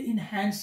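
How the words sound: The second vowel sounds like the one in 'cat'. The speaker calls it wrong. "ये इनहैंस नहीं है, इनहैंस ये American accent है"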